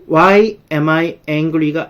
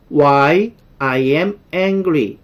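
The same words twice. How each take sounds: First: "Why am I angry?" read slowly as the wrong order, am before I; slow deliberate English with "am I" inverted; wrong word order. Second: "Why I am angry." read slowly with I before am, falling end; slow careful English, statement order "I am"; correct word order. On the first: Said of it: "아니고". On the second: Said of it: "이렇게 바꿔주셔야 맞는 거예요". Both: Shown as a demonstration.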